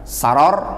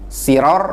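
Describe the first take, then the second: First: The first vowel is an a sound. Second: The first vowel is an i sound. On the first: "Bisa dengan memfathah sin" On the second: "mengkasroh sin"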